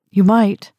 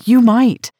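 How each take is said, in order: First: Higher and louder, clinging to hope; young woman desperately insisting to a hostile old woman. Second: Much higher and louder, YOU pressed hard; almost shouting in desperation; repeating her plea even more desperately, near a cry. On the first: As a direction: push the words out desperately. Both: A narrator's reading. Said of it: "I said desperately".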